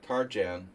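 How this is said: The name is said with American pronunciation.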